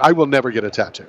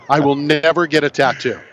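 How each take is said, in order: First: The sentence is spoken at a normal pace. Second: The sentence is spoken slowly and deliberately.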